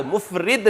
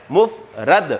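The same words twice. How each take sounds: First: مفرد said as mufrid, with i in the last syllable; wrong pronunciation. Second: مفرد said slowly as muf-rad, with a clear a; correct pronunciation. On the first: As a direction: mispronounce مفرد as mu-frid on purpose. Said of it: "مفرد نہیں، تلفظ ہے مفرد". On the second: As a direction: stress the correct mu-frad in مفرد. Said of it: "تلفظ ہے مفرد". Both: Shown as a demonstration.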